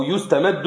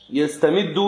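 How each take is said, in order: First: "يستمد" as yustamaddu, u then a; passive verb form. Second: "يستمد" as yastamiddu, a then i; active verb form. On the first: Student offering the other reading, "يستمد" as yustamaddu. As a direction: read "يستمد" with yu- and -maddu. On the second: Student reading the text to the sheikh, "يستمد" as yastamiddu. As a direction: read "يستمد" with ya- and -middu. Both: Shown as a demonstration. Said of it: "أو يستمد".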